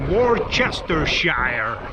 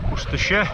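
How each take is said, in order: First: It is said in an American accent. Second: It is said in a British accent.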